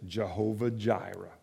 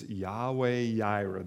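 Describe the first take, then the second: First: Both words begin with a J sound. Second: Both words begin with a Y sound. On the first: The speaker calls it wrong. "You may hear people pronounce it Jehovah Jireh" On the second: The speaker calls it right. "it is Yahweh Yireh"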